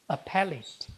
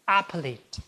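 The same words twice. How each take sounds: First: The stress is on the second syllable. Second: The stress is on the first syllable. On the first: The speaker calls it right. "It should be read as appellate" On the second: The speaker calls it wrong. "Usually, the third syllable from the last should be stressed. But this is a special word. So it can never be read as appellate"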